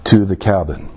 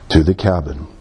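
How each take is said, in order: Both takes have the same delivery.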